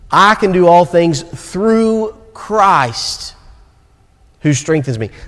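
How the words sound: The stress falls on the word Christ.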